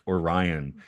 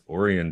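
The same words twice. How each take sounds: First: It is said with an English pronunciation. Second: It is said with a Japanese pronunciation. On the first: This is not how the name is said in Japan. The speaker calls it wrong. "not Orion. ... in Japan they don't say Orion" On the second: This is how the name is said in Japan. The speaker calls it right. "the beer from Okinawa is Orion beer"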